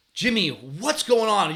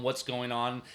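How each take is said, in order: First: Higher, louder, drawn-out scolding; frustrated yell. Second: Casual, softer check-in question. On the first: Frustrated coach yelling at his moping first baseman, scolding yell. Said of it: "I start yelling at him". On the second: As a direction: ask gently, without any scolding. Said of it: "checking in with players". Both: Retold or imitated.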